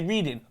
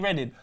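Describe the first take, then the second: First: The first syllable sounds like 'reed'. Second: The first syllable sounds like 'red'. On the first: It is read as the everyday dictionary word. The speaker calls it right. "If I open up the dictionary and say, Mum, what's this word? She would say reading" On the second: It is said the usual way for the place name. The speaker calls it wrong. "Not for one second would she say reading"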